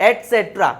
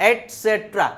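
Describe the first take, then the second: The two takes are said the same way.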